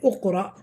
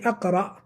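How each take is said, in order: First: The word begins with a u vowel. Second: The word begins with an a vowel. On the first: "We didn't say Uqra" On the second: "We didn't say Aqra"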